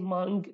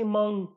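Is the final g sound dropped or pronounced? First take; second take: pronounced; dropped. First: The final g sound is clearly pronounced. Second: It ends in a nasal sound without g. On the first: "in Hawleri accent or normal Kurdish, you would say mung" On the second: "In my accent, in Slemani accent... it becomes a nasal sound"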